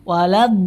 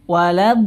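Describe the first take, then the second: No difference in how they are said.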